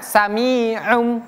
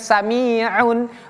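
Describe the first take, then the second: First: The word ends with an m sound. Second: The word ends with an n sound. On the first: The speaker calls it right. "Bacanya sami'um" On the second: The speaker calls it wrong. "bukan sami'un"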